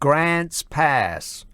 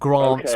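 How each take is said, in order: First: It is said in a put-on American accent. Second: It is said in an English accent. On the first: The speaker calls it right. "I'm going to adopt a cod American accent to say it" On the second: The speaker calls it wrong. "not Grants Pass"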